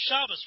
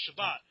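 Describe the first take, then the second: First: "Shabbos" stressed on the first syllable, ending in s; Ashkenazi pronunciation. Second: "Shabbat" stressed on the second syllable, ending in t; Israeli pronunciation. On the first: Showing yeshiva Hebrew, "Shabbos" with first-syllable stress and final s. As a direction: say "Shabbos" the Ashkenazi way, SHAH-bus. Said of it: "with an Ashkenaz twist". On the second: Showing everyday Israeli Hebrew, "Shabbat" with final t. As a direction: say "Shabbat" the Israeli way, sha-BAHT. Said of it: "Most Israelis will say Shabbat". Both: Shown as a demonstration.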